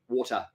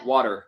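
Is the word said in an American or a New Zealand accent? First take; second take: New Zealand; American. First: It is said in a New Zealand accent. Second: It is said in an American accent. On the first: "we're saying it like uh, W O R T A H" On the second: "whereas they say"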